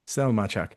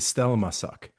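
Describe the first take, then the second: First: The 'sz' is sounded as 'ch'. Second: The 'sz' is sounded as 's'. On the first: This is the Polish pronunciation. "But S Z pronounced cha" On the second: This is how it would be read in Hungarian. "So you would pronounce the S Z as an S instead of a ch"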